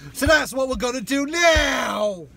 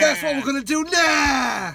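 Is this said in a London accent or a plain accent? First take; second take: plain; London. First: It is said in the speaker's usual accent. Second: It is said in a put-on London accent.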